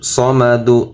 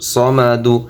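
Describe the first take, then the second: First: The word ends with a short u vowel. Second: The same.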